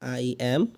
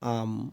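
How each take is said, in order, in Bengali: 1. এটি দুটি আলাদা শব্দ হিসেবে বলা হয়। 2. এটি সংক্ষেপ হয়ে একটি ছোট শব্দাংশে বলা হয়। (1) "আই অ্যাম কে আমরা শর্ট করে বলতে পারি" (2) "শর্ট করে আমরা বলতে পারি আম"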